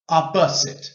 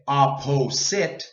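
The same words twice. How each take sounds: First: The unstressed vowel is reduced to schwa. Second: The unstressed vowel is long and full. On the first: The speaker calls it right. "We say opposite" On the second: The speaker calls it wrong. "we don't say opposite. It's too long"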